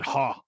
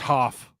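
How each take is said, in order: First: The name ends on an open vowel. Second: The name ends with an f sound. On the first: The speaker calls it right. "I'm pretty sure they said Ha, like H A" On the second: The speaker calls it wrong. "I don't think it's Hoff"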